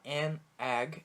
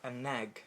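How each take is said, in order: First: The two words are said separately. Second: The two words are linked as one.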